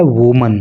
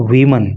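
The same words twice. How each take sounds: First: वुमन with a short oo first vowel; singular woman pronunciation. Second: वीमन with an ee-like first vowel; plural women pronunciation. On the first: Teacher showing how the singular is said, वुमन with oo. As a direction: say वुमन as WUU-mun. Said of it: "इसका उच्चारण होता है वुमन". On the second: Teacher showing how the plural is said, वीमन with ee. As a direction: say वीमन as WEE-mun. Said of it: "इसका उच्चारण हो जाता है वीमन". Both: Shown as a demonstration.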